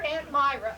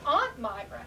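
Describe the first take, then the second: First: Aunt is said with the vowel of plant. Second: Aunt is said with the vowel of font. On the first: It is the everyday, familiar name. "or so I've always called her" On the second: It is the more refined, distinguished name. "Maybe she's Aunt Myra, and it's always galled her"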